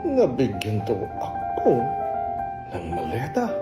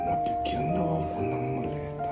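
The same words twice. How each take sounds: First: It sounds sarcastic. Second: It sounds disappointed.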